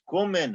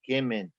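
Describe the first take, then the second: First: It is said in Litvak Yiddish. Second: It is said in Polish Yiddish.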